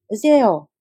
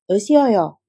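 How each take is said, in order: First: The syllables are said fast and merged together. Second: The syllables are said fully and separately.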